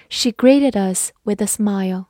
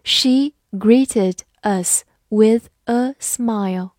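First: Said in the usual way. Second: Slow, clear model reading. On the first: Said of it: "慢慢来读". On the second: Shown as a demonstration. Teacher reading slowly for students to repeat. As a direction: stretch each word out slowly. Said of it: "好，慢慢来读".

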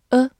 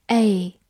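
First: "A" as a short neutral "uh"; weak form. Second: "A" said like the letter name, "ay"; strong form. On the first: Teacher reviewing the article for learners, weak "uh" reading of "A". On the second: Teacher giving learners the other reading, strong "ay" for "A". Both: Shown as a demonstration. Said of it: "或者读作A".

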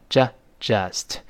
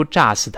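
First: "just" with a short neutral uh; relaxed uh vowel. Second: "just" with wide-open ah, like jahst; wrong vowel. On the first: Teacher shows learners the correct just, relaxed uh. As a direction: ease into "just", mouth loosely open. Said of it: "嘴自然分开". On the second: Teacher warns learners off this reading, wide ah. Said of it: "这个不要读". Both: Shown as a demonstration.

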